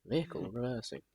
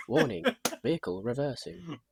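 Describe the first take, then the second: First: Softer echo of the alarm; truck reversing alarm. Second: Higher robotic warning announcement; truck reversing alarm. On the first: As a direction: repeat the machine warning quietly. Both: Retold or imitated. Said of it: "They have that little au".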